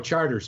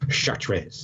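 First: The name is given an English pronunciation. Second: The name is given a French pronunciation. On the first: The speaker calls it right. "No, Charters, man" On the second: The speaker calls it wrong. "I mispronounced Charters when I was there because I thought I was being smart"

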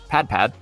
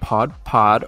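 First: It is said in a Midwest accent. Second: It is said without a Midwest accent.

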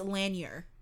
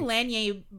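First: The name is pronounced in an American style. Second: The name is pronounced in a French style. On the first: The name is treated as American. The speaker calls it right. "but he's American, so I'm pretty sure it's Lanier" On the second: The name is treated as French. The speaker calls it wrong. "that's how we Canadians have been told to pronounce certain things like that look French"

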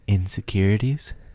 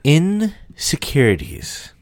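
First: It is said somewhat louder. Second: It is said at its loudest.

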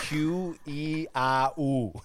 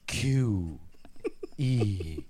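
First: It is said in a plain, normal voice. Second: It is said slower, lower and breathy.

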